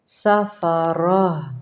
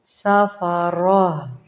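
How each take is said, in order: First: The word ends with a soft 'h' sound. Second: The same.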